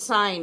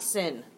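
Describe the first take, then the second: First: The vowel is long, like 'sign'. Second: The vowel is short, like 'sin'. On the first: The speaker calls it right. "It is still pronounced sine" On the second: The speaker calls it wrong. "It is not sin"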